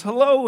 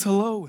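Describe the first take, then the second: First: A high, half-hearted try at a voice; failed impression attempt. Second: Said in the usual way. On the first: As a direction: start the voice, then give up on it. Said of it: "I can't even do the voice". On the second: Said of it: "so I'm not gonna try".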